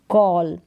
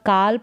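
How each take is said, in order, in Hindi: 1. स्वर 'aw' जैसा सुनाई देता है। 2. स्वर 'ah' जैसा सुनाई देता है। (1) "यानी कि कॉल" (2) "यहाँ पर काल पढ़ दे"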